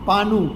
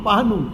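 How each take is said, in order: The two takes are said the same way.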